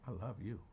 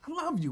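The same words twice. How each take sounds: First: It is said in a soft, tender, romantic tone. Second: It is said in a casual, matter-of-fact tone. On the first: It expresses romantic affection. The speaker calls it wrong. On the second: It expresses friendly, brotherly affection. The speaker calls it right. "Like DeAndre, I love you, my brother"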